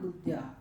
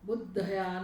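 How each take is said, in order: First: The dh and y sounds join with no vowel. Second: A short vowel separates the dh and y sounds. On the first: The speaker calls it right. "पण बुद्ध्या" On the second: The speaker calls it wrong. "नहीं"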